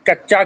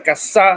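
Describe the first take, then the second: First: The middle consonant is a 'ch' sound. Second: The middle consonant is an 's' sound. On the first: This is the standard Hindi pronunciation. "च की जगह पर स बोलते हैं" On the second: This is how speakers in Assam would say it. "कच्चा की जगह पर कस्सा"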